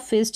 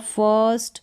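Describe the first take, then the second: First: The vowel is a short 'i' sound. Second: The vowel is a long 'er' sound. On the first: The speaker calls it wrong. "फिस्ट नहीं होगा" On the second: The speaker calls it right. "उसका उच्चारण अ करके होगा, long sound अ"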